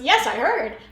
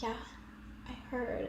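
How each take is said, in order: First: It is said in a full, emphatic voice. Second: It is whispered and rushed past quickly.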